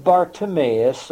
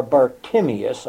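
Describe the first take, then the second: First: Bartimaeus said as bar-tuh-MAY-us; first pronunciation. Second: Bartimaeus said as bar-TIM-ee-us; alternative pronunciation. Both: Shown as a demonstration. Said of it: "not sure how you pronounce that".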